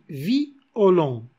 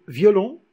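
First: The i and o are split into two syllables. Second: The i and o merge into one syllable. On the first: "on dit violon" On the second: "au lieu de dire violon"

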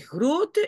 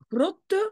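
First: The first vowel is long. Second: The first vowel is short. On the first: The speaker calls it right. "c'est grote" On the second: The speaker calls it wrong. "et pas grotte"

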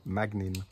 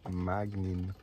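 First: The name is said at normal speed. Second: The name is said slowly.

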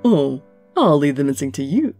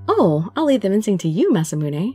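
First: It is said in a different character's voice. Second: It is said in the princess character's voice.

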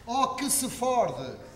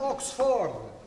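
First: The word is said slowly and drawn out. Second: The word is said at a normal pace.

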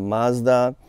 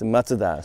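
First: It is said with an American pronunciation. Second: It is said with a Japanese pronunciation. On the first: "in the US it's kind of Mazda" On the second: "Japan it's Mazda"

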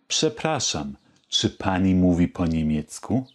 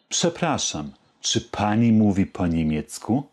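The two takes are said the same way.

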